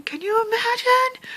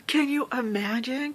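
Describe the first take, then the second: First: High thrilled rise; excited squeal. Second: Said in the usual way. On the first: Real, not acted. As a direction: squeal it with joy. Repeated in excitement.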